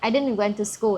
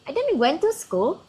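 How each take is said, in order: First: The pitch stays level, like a plain statement. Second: The pitch is raised, sounding questioning. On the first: A learner's ordinary sentence containing a mistake. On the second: The mistake is echoed back so the learner notices it.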